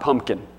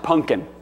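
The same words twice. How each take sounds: First: It uses a different, non-regional pronunciation. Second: It uses the speaker's home regional pronunciation. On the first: This is not how people say it at home. The speaker calls it wrong. "not pumpkin" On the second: This is how people say it at home. The speaker calls it right. "where I'm from, it's usually pronounced pumpkin"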